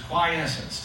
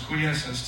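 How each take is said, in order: First: The first vowel sounds like 'eye'. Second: The first vowel sounds like 'ee'. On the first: The speaker calls it right. "It's a long I instead of a double E" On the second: The speaker calls it wrong. "I thought it was quiescence too"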